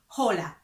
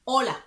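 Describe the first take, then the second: First: The word begins with an audible h sound. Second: The word begins directly with the vowel sound. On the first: The speaker calls it wrong. "we don't say hola" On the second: The speaker calls it right. "We don't pronounce the H because it's silent"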